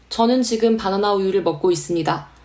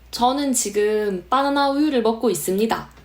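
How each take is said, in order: First: It is said with a flattened, level intonation. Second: It is said with regional dialect intonation. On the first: "펴서 읽으라고들 많이들 얘기하거든요" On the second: "이렇게 사투리를 쓸 수도 있지만"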